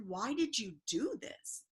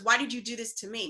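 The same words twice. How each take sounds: First: Slow, drawn-out "Why did you do this"; "Why did you do this" spaced out slowly, rising at the end; retold pleading question. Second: Quick "Why did you do this to me"; "Why did you do this to me" run fast, falling at the end; retold accusing retort. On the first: Retold confrontation over wrecked home. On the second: His retort, quoted back faster.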